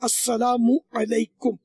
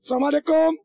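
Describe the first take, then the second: First: Every syllable is said fully and clearly. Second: The first syllable is dropped and the words merged. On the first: The speaker calls it right. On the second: The speaker calls it wrong.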